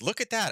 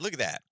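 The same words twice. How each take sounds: First: Much higher, sarcastic "Look at that" with the word "at" leaping up; mock amazement. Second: Said in the usual way. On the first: Real, not acted. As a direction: feign wonder, dripping with sarcasm. Sarcastic at EU oil hypocrisy.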